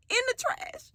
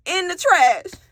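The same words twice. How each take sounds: First: Shocked disbelief. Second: "trash" hit high and firm in disbelief; stressed repeat. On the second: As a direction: lean into "trash" as you repeat it, outraged. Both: Real, not acted.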